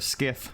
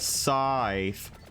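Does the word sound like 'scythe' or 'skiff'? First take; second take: skiff; scythe. First: The word sounds like 'skiff'. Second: The word sounds like 'scythe'. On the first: The speaker calls it right. "It's actually skiff" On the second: The speaker calls it wrong. "saying scythe incorrectly"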